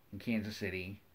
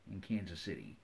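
No difference in how they are said.

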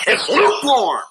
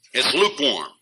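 First: High, loud "lukewarm" hammered; emphatic verdict. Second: Said in the usual way. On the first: Real, not acted. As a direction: slam down the word lukewarm. Repeated verdict on the age.

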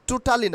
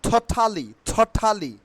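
First: "totally" with plain unaspirated t sounds; wrong pronunciation. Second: "totally" as tho-thaa-li, puffed t sounds; corrected pronunciation. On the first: Teacher showing learners the version to drop, "totally" unaspirated. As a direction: say "totally" the local way, as tru-ta-li. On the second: Teacher drilling learners, "totally" said clearly with aspirated t's. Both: Shown as a demonstration. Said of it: "আচ্ছা, totally না".

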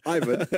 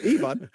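First: Ivan said as EYE-vun; "Ivan" pronounced EYE-vən; English-style pronunciation. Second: Ivan said as ee-VAHN; "Ivan" pronounced EE-vahn; foreign-style pronunciation. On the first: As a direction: say "Ivan" starting like the word eye. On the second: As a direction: say "Ivan" with an EE start and long open AH. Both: Shown as a demonstration. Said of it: "I'll just keep saying both".

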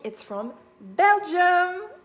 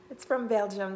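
First: "Belgium" drawn out slowly, higher and louder; emphatic correction. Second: Said in the usual way. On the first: Real, not acted. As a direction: lean hard on "Belgium" to fix your mistake. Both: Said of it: "this is not from Germany".

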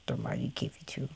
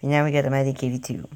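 First: Whispered in reverence for the tank; awed whisper. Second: Said in the usual way. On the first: Real, not acted. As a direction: breathe it out in hushed awe.

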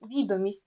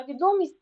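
First: ВІдомість, stressed on the first syllable; Відомість with initial stress, as a demo; stress shows meaning. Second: ВідОмість, stressed on the second syllable; відомість with middle stress, as a demo; stress shows meaning. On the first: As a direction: put the stress at the start of Відомість. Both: Shown as a demonstration. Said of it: "значення слова залежить від наголосу".

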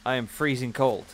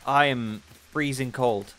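First: Said in the usual way. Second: Slow, shivering from cold. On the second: Real, not acted. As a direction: drawl it out, freezing.

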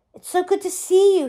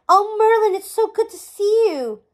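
First: Higher, eager gush. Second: High, loud overjoyed greeting; bursting with joy at the reunion; joyful. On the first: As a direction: pour out the warmth, a little higher. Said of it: "he gushed". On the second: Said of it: "burst with joy". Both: A narrator's reading.

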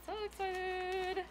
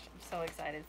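First: Higher, slow squealing excitement; excited. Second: Said in the usual way. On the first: Real, not acted. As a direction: stretch it out, thrilled.

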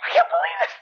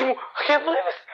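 First: Very high-pitched hysterical shriek; screaming. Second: Hammed-up disbelief, pitched high; mock scream. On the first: Acted. Mother reacting to her son's confession, screaming. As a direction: wail it in a hammed-up falsetto. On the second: Mother reacting to her son's confession, mild mock scream. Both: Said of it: "She starts screaming".

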